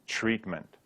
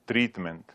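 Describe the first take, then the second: First: The first sound is close to ch. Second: The first sound is a clear t. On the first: This is how locals say it. "we're really saying ch" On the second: This shows someone is not from here. "they actually pronounce it the way it's written"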